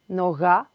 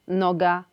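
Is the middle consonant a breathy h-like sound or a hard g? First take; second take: breathy h; hard g. First: The middle consonant is a voiced breathy h. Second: The middle consonant is a hard plosive g. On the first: "Odpowiednikami ukraińskiego gaj, noga" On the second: "są w języku polskim wyrazy"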